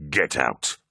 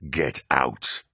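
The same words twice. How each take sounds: First: Low, hard command; angry dismissal. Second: Low, heavy yelled command; yelling. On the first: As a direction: bark him out of the room. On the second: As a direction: throw him out. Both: A narrator's reading. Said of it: "Horus yelled".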